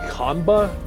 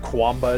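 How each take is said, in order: First: The name starts with a plain k sound. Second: The name starts with a kw sound. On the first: The speaker calls it right. "it's Kanba? ... Like how they pronounce it in China" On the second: The speaker calls it wrong. "It's not Kwamba"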